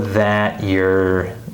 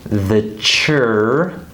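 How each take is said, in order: First: The T and Y sounds are kept separate. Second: The T and Y merge into a CH sound.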